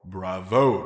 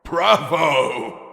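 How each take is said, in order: First: A gentle, approving bravo; warm praise. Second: Loud, laughing cheer; loud delighted bravo. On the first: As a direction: praise her kindly. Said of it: "The unicorn stallion spoke warmly". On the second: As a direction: roar it out in delight. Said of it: "laughing uproariously". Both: A narrator's reading.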